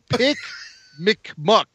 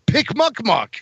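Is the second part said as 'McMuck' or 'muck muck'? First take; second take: McMuck; muck muck. First: The middle sounds like an Irish 'Mc' prefix. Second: The middle is two plain repeated 'muck' syllables. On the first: The speaker calls it wrong. "Not McMuck. That's the Irish Kowakian monkey lizard" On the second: The speaker calls it right. "No, pick muck muck"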